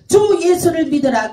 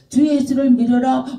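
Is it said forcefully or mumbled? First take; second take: forcefully; mumbled. First: It is declared loudly and forcefully. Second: It is mumbled weakly inside the mouth.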